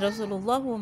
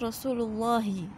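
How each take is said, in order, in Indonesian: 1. Kata ini diakhiri dengan vokal 'u'. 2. Kata ini diakhiri dengan vokal 'i'. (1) "nggak boleh dibaca ... Eh Rasulullahu maaf" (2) "Jadi dia harus Rasulullahi hi"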